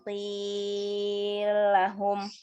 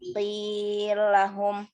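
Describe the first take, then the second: First: The vowel is held for a medium length. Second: The vowel is held only briefly. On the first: "Lalu yang tawasud" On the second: "untuk yang qasr"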